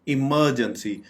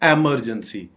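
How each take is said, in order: First: The first vowel is a short 'ih' sound. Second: The first vowel is an 'eh' sound. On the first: The speaker calls it right. "हम बोलेंगे इमरजेंसी" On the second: The speaker calls it wrong. "बिल्कुल भी एमरजेंसी नहीं बोलना चाहिए"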